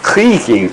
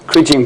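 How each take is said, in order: First: The g is said the Flemish way. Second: The g is said as a hard g. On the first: "since it comes from the Flemish, we should say" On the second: "both uh, are pronounced with a hard G"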